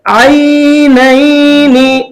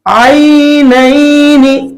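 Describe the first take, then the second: The two takes are said the same way.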